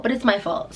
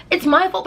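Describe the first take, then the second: First: Said in the usual way. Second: "my" pitched high and punched; stress on my. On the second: Shown as a demonstration. Vlogger admitting blame, hitting "my". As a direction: lean hard on "my" in "it's my fault". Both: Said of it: "but it's not my fault".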